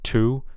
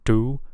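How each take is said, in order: First: The t is released with a puff of air. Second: The t is released without a puff of air. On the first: The speaker calls it right. "we expect it to be aspirated. So there should be a little puff of air" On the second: The speaker calls it wrong. "I'm hearing it unaspirated instead of aspirated"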